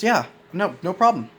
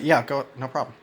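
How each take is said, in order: First: The voice is pitched high and rises. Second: The voice is pitched low and level. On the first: The speaker is seeking affirmation in return. "it can be accompanied with a higher intonation in their voice" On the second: The speaker is not seeking anything in return. "Versus me, if I were to say"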